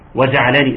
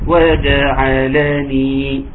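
First: The short vowels are slurred and reduced. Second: Each short vowel is fully and clearly pronounced. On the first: The speaker calls it wrong. "في ناس ما بتحققش الحركات" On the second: The speaker calls it right. "تحقيق الحركات"

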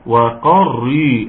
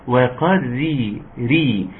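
First: The r sound is heavy and thick. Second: The r sound is light and thin. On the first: The speaker calls it wrong. "الراء دي برضو يا جماعة مفخمة" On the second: The speaker calls it right. "عاوزين نتكلم في الراء المرققة جدا"

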